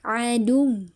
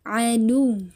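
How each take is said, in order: Both takes have the same delivery.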